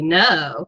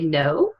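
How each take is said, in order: First: It is said in a sarcastic, mocking tone. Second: It is said hesitantly, leaving the answer open. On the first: "You could say it sarcastically" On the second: "which means I'm not yes. It could be yes"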